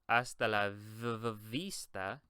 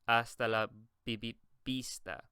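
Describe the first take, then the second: First: Vista begins with a V sound. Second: Vista begins with a B sound. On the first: The speaker calls it wrong. "So you would not say hasta la v- v- vista" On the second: The speaker calls it right. "You would say hasta la bi- bi- vista"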